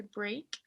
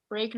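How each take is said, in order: First: "break" as one syllable, rhyming with make; correct pronunciation of break. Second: "break" sounded out Spanish-style, bre-ak in two syllables; wrong pronunciation of break. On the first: Teacher shows students how it is said, "break" as one English syllable. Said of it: "se dice break". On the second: Teacher warns students how not to say it, "break" misread as bre-ak. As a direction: say "break" letter by letter, e and a both voiced. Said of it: "no se dice break". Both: Shown as a demonstration.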